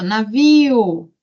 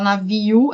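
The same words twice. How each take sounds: First: "navio" slowly, with "i" and "o" kept apart, falling; correct pronunciation demo. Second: "navio" ending glided into "naviu", rising; wrong pronunciation demo. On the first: Teacher showing the class the right way, separate vowels. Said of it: "é navio". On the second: Teacher showing the class the wrong way, glided "naviu". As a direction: say "navio" with the last vowels run together as "naviu". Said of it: "Eu não falo navio". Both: Shown as a demonstration.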